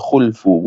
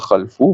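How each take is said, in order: First: The first vowel is u. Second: The first vowel is a. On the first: The speaker calls it right. "bi dhammil kha'i ... bacanya khulfu" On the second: The speaker calls it wrong. "bukan khalfu"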